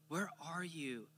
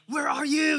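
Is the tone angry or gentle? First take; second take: gentle; angry. First: It is said in a gentle, loving tone. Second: It is yelled in an angry tone.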